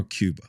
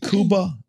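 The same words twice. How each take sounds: First: Cuba said as KYOO-buh; Americanized Cuba. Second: Cuba said as KOO-bah; native pronunciation of Cuba. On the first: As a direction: put a y glide into Cuba, like "cube". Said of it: "rednecks as we are". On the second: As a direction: say Cuba with a plain oo, no y glide. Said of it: "natives probably pronounce it Cuba". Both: Shown as a demonstration.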